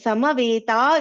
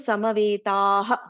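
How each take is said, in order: First: The word ends on a plain vowel. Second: The word ends with an added breathy 'ha'. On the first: "Samaveta is there" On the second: "actually there is a Visarga here"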